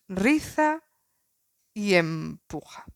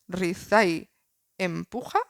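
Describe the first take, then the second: First: The 'y' blends into the syllable after it. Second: The 'y' blends into the syllable before it. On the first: "que a mí me gusta más como suena" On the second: "Podéis hacer la primera"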